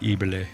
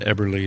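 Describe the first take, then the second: First: The name is said with a German pronunciation. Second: The name is said with an American pronunciation. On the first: This is how people in Germany say it. "they say like" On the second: This is how the family says it at home. "we say what we call it"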